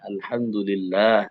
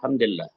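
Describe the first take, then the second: First: The final long vowel is drawn out. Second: The final long vowel is cut short. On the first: It says the name of God properly. The speaker calls it right. "Allah ada mat Allah" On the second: It distorts the name of God. The speaker calls it wrong. "Itu berarti mentahrif nama Allah, merusak nama Allah"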